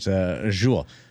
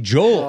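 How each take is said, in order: First: The name is said like the word jewel. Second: The name is said as two syllables, Joel. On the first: This is how the name is said now. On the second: This is how the name used to be said. "he used to be Joel Erickson Ek"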